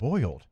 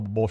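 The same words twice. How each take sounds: First: The word is said slowly and carefully. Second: The word is said quickly and loosely. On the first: The speaker is paying attention to how it sounds. "If I'm really thinking" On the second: The speaker is talking casually without thinking. "if I'm just talking fast"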